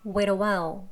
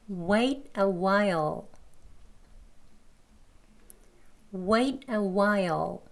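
First: It is faster, linked, with a weak final L. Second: It is said slowly with a full final L. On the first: "이 소리 약하게. 빨리 발음할 때는요. 여기 wait 하고 연음해 주면 됩니다" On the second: "천천히 두 번 합니다"

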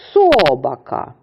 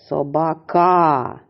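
First: The stress is on the first syllable. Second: The stress is on the third syllable. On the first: "Невірно. Наголос ми поставили на перший склад" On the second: "А тепер поставимо наголос на третій склад"

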